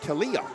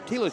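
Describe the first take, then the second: First: The name is said as Talia. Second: The name is said as Tila. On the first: The speaker calls it wrong. "I've been calling her Talia" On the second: The speaker calls it right. "That is Tila Giron"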